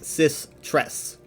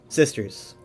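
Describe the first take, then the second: First: It is said as two parts, cis and tres. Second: It is said like the word sisters. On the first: The speaker calls it wrong. "I used to say it as cis tres, like cis tres. That's how I used to say it" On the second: The speaker calls it right. "in the game officially in the lore, it is pronounced sisters"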